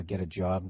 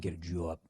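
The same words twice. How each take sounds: First: Said in the usual way. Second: "job" with a broad Boston vowel, low and soft; Boston accent. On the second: Shown as a demonstration. Host contrasting two sayings of job, Boston accent. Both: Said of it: "working on your Boston accents".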